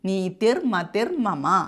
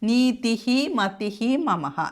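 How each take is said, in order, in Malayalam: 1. ആദ്യത്തെ രണ്ട് വാക്കുകൾ r ശബ്ദത്തിലാണ് അവസാനിക്കുന്നത്. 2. ആദ്യത്തെ രണ്ട് വാക്കുകൾ h ശബ്ദത്തിലാണ് അവസാനിക്കുന്നത്.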